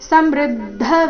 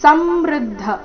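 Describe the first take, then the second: First: The stress is on the second syllable. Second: The stress is on the first syllable. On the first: The speaker calls it right. "ಮೃ ಮೇಲೆ ಆಘಾತ ಬರಬೇಕು" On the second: The speaker calls it wrong. "ಈ ರೀತಿ ಬೇಡ ಸ ಮೇಲೆ ಆಘಾತ ಬರಕೂಡದು"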